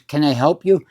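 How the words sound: It is said in a hard, aggressive, threatening way. The question is a warning, not an offer. "It's a threat"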